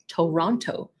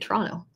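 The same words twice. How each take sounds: First: Every syllable is pronounced fully and clearly. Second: Syllables are reduced and run together. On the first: The speaker is not from the city. "they'll try to say every single syllable" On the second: The speaker is a local. "in Toronto people just say Toronto"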